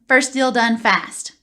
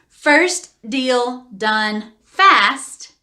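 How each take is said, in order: First: The phrase is said at a quick pace. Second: The phrase is said at a slow pace.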